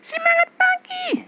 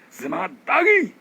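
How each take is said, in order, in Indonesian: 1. Suaranya terdengar tipis dan berasal dari tenggorokan. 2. Suaranya terdengar panjang, bertenaga, dan berasal dari perut. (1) "Ini masih sini loh" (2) "Ini udah perut"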